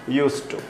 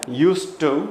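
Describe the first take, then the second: First: The two t sounds merge into one. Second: The t sound is pronounced twice, clearly. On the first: "कई बार इतना ही सुनाई देता है" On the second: "ट दो बार आ सकता है"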